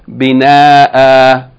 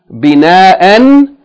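First: The word ends with a long vowel. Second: The word ends with an n sound. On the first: The reader stops on the word. "if you stop on it, you're going to pronounce it Bina'a" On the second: The reader continues without stopping on the word. "instead of pronouncing the noon"

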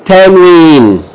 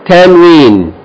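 The two takes are said the same way.

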